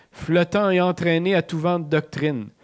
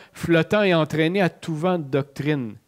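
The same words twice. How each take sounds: Both takes have the same delivery.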